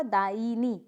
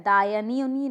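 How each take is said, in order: First: दायिनी as daa-ee-nee; correct pronunciation. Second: दायनी as daa-ya-nee; incorrect pronunciation. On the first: Teacher answering, दायिनी with the ee sounded. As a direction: put a clear "ee" in the middle of दायिनी. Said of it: "क्या होगा?". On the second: Teacher showing a mistake, दायनी with "ya". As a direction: put "ya" in the middle of दायनी. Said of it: "नहीं होता है". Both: Shown as a demonstration.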